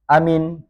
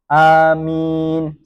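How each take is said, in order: First: The first vowel is kept short. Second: The first vowel is drawn out long. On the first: "dibaca pendek" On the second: "seperti lafaz Yasin"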